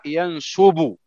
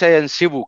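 First: The middle vowel is a u sound. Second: The middle vowel is an i sound. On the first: The speaker calls it right. "فعل يفعل. رفق يرفق. نسب ينسب" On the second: The speaker calls it wrong. "وليس ينسب كما ينطقها كثير من الناس"

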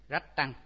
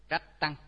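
The two takes are said the same way.

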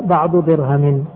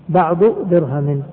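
Both takes have the same delivery.

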